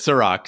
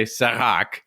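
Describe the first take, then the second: First: "Sirac" with an English r; "Sirac" in plain American sounds, no French r; corrected pronunciation. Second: "Sirac" with a throaty French r; "Sirac" Frenchified with a guttural r; wrong French pronunciation. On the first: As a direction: say "Sirac" as suh-ROCK. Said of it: "He says". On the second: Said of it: "He does not say". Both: Shown as a demonstration.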